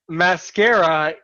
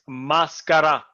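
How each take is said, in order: First: The word has its English pronunciation. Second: The word has its Arabic pronunciation. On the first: "is the English pronunciation" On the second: "in Arabic it's mascara"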